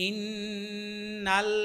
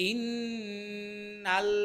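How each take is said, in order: The two takes are said the same way.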